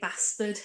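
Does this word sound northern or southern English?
northern. It is said with a northern English accent. It is the habit picked up from a partner. "I say bastard a lot"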